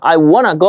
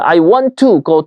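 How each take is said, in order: First: The words 'want to' blend into one reduced 'wanna'. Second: The words 'want to' are said fully and separately.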